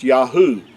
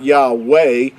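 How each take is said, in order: First: The name ends with an 'oo' sound. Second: The name ends with a 'way' sound. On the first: The speaker calls it right. "it has the oo sound" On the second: The speaker calls it wrong. "It's not Yahweh or Yah with a W sound"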